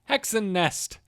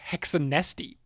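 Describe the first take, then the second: First: The name ends on the final consonant. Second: The name ends with an extra vowel sound.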